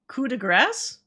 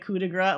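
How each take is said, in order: First: The last word ends with an s sound. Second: The last word ends without an s sound. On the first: The speaker calls it right. "you do say gra- grass?" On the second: The speaker calls it wrong. "I'm saying it right, right?"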